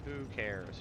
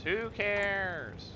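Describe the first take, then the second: First: Said in the usual way. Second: Who cares? flung out higher and louder, cares dropping; mock dismissive. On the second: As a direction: toss off Who cares? with a theatrical shrug. Repeats shrug line louder, higher.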